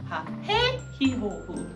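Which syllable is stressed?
해. The stress falls on the second syllable.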